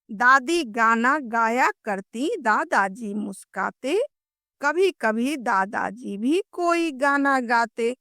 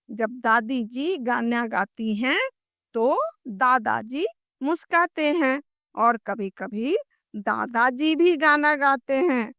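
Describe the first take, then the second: First: Put-on lilting children's rhyme; कविता पाठ. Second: Said in the usual way. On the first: Shown as a demonstration. (लय के साथ कविता सुनाना) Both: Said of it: "हम लोग कविता पढ़ते हैं".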